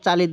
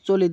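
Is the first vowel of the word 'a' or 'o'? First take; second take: a; o. First: The first vowel is an open 'a' sound. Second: The first vowel is a rounded 'o' sound. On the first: The speaker calls it right. "শুদ্ধভাবে যদি দিতে চান তাহলে কিন্তু চালি হবে" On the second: The speaker calls it wrong. "উচ্চারণটা ভুল"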